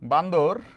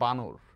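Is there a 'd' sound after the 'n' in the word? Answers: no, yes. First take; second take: yes; no. First: A 'd' sound follows the 'n' in the middle. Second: No 'd' sound follows the 'n' in the middle. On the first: It is an affectionate nickname. "খুব ভালোবেসে আমি বান্দর নাম দিলাম" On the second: It is the standard form of the word. "Actually উচ্চারণটা হয় বানর"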